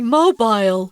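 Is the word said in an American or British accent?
British. It is said in a British accent. "if you're in England, guys, you should know that they pronounce those phones as mobiles"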